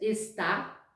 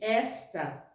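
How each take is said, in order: First: The stress is on the second syllable. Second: The stress is on the first syllable. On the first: It is the verb meaning 'is'. "existe a pronúncia está, que é o verbo" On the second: It is the demonstrative meaning 'this'. "e existe esta, que é o pronome demonstrativo"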